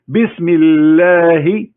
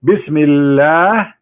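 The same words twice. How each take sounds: First: "Bismillah" drawn out very slowly, rising at the end. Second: "Bismillah" said very slowly with a rise; slow Bismillah again. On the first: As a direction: spell out "Bismillah" syllable by syllable, slowly. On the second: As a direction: drag "Bismillah" out, lifting the end. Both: Shown as a demonstration. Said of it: "let me divide it for you".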